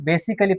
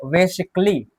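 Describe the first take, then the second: First: Basically in four syllables, ba-si-ka-lee; pronounced with A. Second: Basically in three syllables, base-ik-lee; silent A. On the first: Teacher showing how many children read it, basically with a sounded A. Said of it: "आ का उच्चारण तो होगा ही नहीं". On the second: Teacher showing students the correct reading, basically with silent A. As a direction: drop the A in basically, k straight into lee. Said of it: "तो हम इसे क्या पढ़ेंगे?". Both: Shown as a demonstration.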